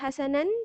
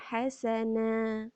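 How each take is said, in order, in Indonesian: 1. Kata ini berakhir dengan bunyi n. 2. Kata ini berakhir dengan vokal panjang yang terbuka.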